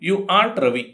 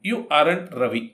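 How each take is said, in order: First: Aren't is said as one short syllable. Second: Aren't is said as two syllables. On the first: "ಇದನ್ನು ಆಂಟ್ ಅಂತ ಕೂಡ ಉಚ್ಚಾರ ಮಾಡ್ತೇವೆ" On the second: "ಆರಂಟ್ ಉಂಟಲ್ಲ"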